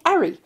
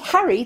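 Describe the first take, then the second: First: The word starts without an h sound. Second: The word starts with an h sound. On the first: "they'd say Ari" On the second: "they wouldn't say Harry"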